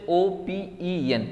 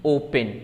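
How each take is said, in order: First: ओपीईएन spelled slowly as separate letters. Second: Said in the usual way. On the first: Shown as a demonstration. (ओपीईएन को धीरे-धीरे अक्षर-अक्षर बोलना) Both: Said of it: "ओपन पढ़ते हैं".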